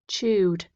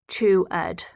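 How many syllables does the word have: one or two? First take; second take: one; two. First: The ending is a plain d, one syllable. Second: The ending is an extra ed syllable. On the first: The speaker calls it right. "then the d sound is the choice" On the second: The speaker calls it wrong. "We don't go ... chew ed"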